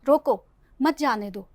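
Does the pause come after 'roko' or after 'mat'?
after roko. The pause comes after the word roko. Stop the friend from leaving. "यानी कि आप उससे सुलह करना चाहते हैं"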